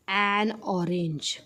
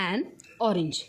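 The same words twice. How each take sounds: First: An orange said very slowly, an clearly linked; slow model phrase. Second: Said in the usual way. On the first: Shown as a demonstration. Teacher presenting the example to students, very slowly. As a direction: drag out an orange word by word. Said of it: "इथे काय येणार आहे बघा?". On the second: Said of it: "काय येणार आहे?".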